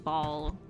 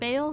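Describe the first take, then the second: First: The name rhymes with 'doll'. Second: The name rhymes with 'mail'. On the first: "someone pronounce Bale like ball" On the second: "isn't it pronounced Bale?"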